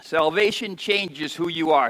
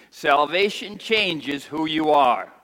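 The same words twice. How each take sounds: First: Said in the usual way. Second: Slow, weighty repeat; congregation repeat. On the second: Shown as a demonstration. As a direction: lead the congregation slowly. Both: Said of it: "Say that with me".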